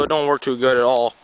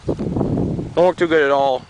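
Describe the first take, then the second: First: Said in the usual way. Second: "Don't work too good at all" drawn out slowly for emphasis; slow repeat. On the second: Real, not acted. Repeats complaint about plow.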